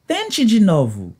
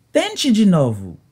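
The two takes are said the same way.

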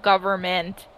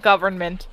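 First: Government said without the n, as "goverment"; "government" with the n dropped; misspelling read out. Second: Government said with the n, "goverNment"; "government" with a clear n before ment; correct pronunciation. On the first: Retold or imitated. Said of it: "Didn't even spell government right". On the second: Shown as a demonstration. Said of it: "Not government".

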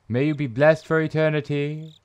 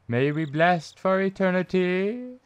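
First: Solemn, level intoning; held, chant-like delivery; epitaph reading. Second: Higher intoning, rising on ETERNITY; high chant with a drawn, rising ETERNITY; high-pitched repeat. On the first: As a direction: intone it evenly, like a blessing. Reads epitaph, first take. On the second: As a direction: lift the blessing higher, climbing to the end. Repeats epitaph, higher second take. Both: Acted.

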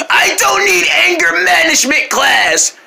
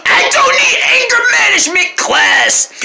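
First: Slower wailing repeat; angry yell. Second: High, loud crying shout; furious wailing denial; angry yell. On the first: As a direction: wail it again, drawn out. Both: Acted. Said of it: "you yell at everybody so much".

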